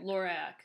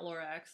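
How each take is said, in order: First: The name ends with a plain k sound. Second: The name ends with a ks sound. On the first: The speaker calls it right. "Lorac, not Lorax" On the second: The speaker calls it wrong. "not Lorax. There's no X on the end"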